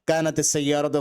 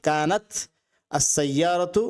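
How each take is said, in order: First: Kanat ends in ti, linked to the next word. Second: Kanat ends in a bare t sound.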